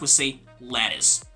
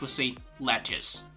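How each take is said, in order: First: The word is said in an American accent. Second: The word is said in a British accent. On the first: "In American English" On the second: "But in British English"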